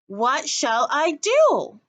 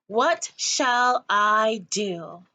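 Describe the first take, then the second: First: Louder, higher, slow pleading whine; insistent whine. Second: Slow drawn-out bored whine. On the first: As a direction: push it again, more insistent. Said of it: "repeated Coraline". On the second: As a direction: drag it out, bored. Bored child asking. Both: Acted.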